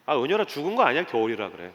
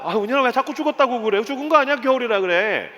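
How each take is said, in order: First: Said in the usual way. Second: Higher-pitched, pleading correction; exasperated father. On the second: Retold or imitated. Dad corrects his daughter yet once more, exasperated. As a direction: insist as a worn-down parent.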